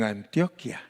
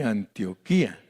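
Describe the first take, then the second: First: The stress falls on the syllable 'tio'. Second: The stress falls on the syllable 'qui'. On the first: This is how Colombians say their region's name. "Le ponen el acento en la primera I" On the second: This is the biblical city's name. "tiene acento en la última I"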